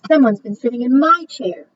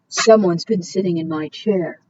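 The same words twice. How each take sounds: First: It is said in a medium-sized voice. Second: It is said in a big, deep voice.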